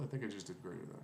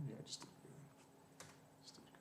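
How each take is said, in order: First: Said in the usual way. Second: Barely voiced, muttering under his breath; whispered mutter. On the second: Real, not acted. Coder whispering to himself after spotting his mistake, muttered. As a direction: whisper it to yourself as you spot the bug.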